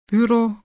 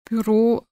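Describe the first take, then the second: First: The stress is on the first syllable. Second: The stress is on the last syllable. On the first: This is the Swiss German way. "Zweisilbige Wörter werden grundsätzlich auf der ersten Silbe betont" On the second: This is the Standard German way. "wie im Hochdeutschen"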